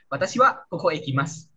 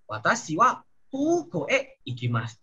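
First: "kuku" as quick "koko" in a faster sentence; short o. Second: "kuku" stretched as "kooko"; long o. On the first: Teacher mimics learners' slip, short quick o in "kuku". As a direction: rush "kuku" with short o's. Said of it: "Tapi kalian bilang". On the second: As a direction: hold the first o of "kuku". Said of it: "panjang ya O-nya". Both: Shown as a demonstration.

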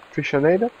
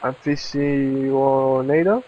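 First: "Aficionado?" tried again faster, still unsure, rising at the end; hurried, doubtful "Aficionado?" with a questioning rise; quick second try. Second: "aficionado?" sounded out slowly, each syllable tried with a questioning rise; slow, halting "aficionado?" ending up in a question; unsure pronunciation. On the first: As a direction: give "Aficionado?" another quick guess. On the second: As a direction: puzzle out "aficionado?" letter by letter. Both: Real, not acted. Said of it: "I can't even read this word".

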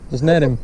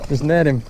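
The two takes are said the same way.

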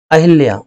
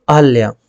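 First: अहिल्या with a full "hi" vowel after the a; the wrong version, अहिल्या; wrong form अहिल्या. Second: अहल्या with a short "ha", no "i" sound; the right version, अहल्या; correct form अहल्या. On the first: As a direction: say the incorrect अहिल्या clearly with its "i". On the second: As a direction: give the correct अहल्या, dropping the "i". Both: Shown as a demonstration. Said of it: "अहिल्या ना होकर के अहल्या है".

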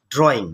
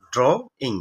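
First: Said in the usual way. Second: "ড্রয়িং" split as ড্র, gap, ইং; teacher sounding out "ড্রয়িং" part by part; broken into syllables. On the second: Shown as a demonstration. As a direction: say "ড্রয়িং" in two separate syllables. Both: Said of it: "ভাঙলে কি হবে?".

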